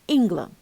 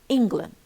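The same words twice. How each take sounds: The two takes are said the same way.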